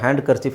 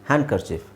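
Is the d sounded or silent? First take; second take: sounded; silent. First: The d is pronounced with emphasis. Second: The d is left silent. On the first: The speaker calls it wrong. "ಡಿನ ಹೇಳಿಬಿಟ್ಟು ಒತ್ತಿ ಹೇಳೋ ಅವಶ್ಯಕತೆ ಇಲ್ಲ" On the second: The speaker calls it right. "ಡಿ silent ಮಾಡಿಬಿಟ್ಟು"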